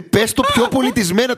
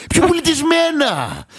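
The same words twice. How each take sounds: First: Said in the usual way. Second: High, slow outraged "Πιο πολιτισμένα!"; hammed-up offended customer, slowed right down; mock indignant quote. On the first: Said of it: "Δηλαδή". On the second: Mocking the comedian's line, exaggerated outrage. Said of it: "και λέει".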